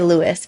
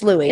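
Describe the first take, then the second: First: The name ends with an s sound. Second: The name ends in a vowel, no s. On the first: The speaker calls it wrong. "Everyone um, wants to say Louis" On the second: The speaker calls it right. "but it's Louie"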